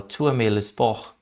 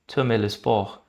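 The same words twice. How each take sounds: First: Tu aimes le sport very slowly, with each word apart; slow French demo. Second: Said in the usual way. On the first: Shown as a demonstration. (frase francesa dita bem devagar) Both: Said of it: "Ele falou".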